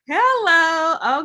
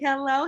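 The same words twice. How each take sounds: First: It is said in a Madea impression voice. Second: It is said in her normal voice.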